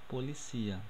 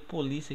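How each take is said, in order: First: The stress falls on the syllable cia. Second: The stress falls on the syllable li. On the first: This is the Spanish word. "o som forte não vai estar aqui é, no li, vai estar no cia" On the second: This is the Portuguese word. "Porque polícia aqui é português"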